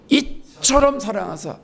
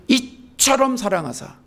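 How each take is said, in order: No difference in how they are said.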